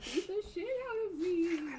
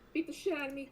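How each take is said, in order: First: It is said in a put-on ghostly voice. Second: It is said in his normal voice.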